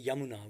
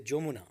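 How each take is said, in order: First: The name begins with a Y sound. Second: The name begins with a J sound. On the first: This is the Sanskrit or Hindi form of the name. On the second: This is the Bengali form of the name.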